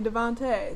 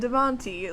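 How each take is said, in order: First: The final vowel sounds like 'ay'. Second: The final vowel sounds like 'ee'. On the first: The speaker calls it right. "even though it's clearly Devonte" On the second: The speaker calls it wrong. "I said Devonte like a fucking idiot"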